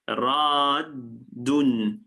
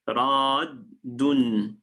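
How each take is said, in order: First: The two d sounds merge into one doubled d. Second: The two d sounds merge into one doubled d.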